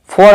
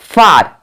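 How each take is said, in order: First: The vowel is a rounded 'aw' sound. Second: The vowel is an open 'aa' sound. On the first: The speaker calls it wrong. "आप फॉर नहीं पढ़ सकते हो" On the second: The speaker calls it right. "फार होता है"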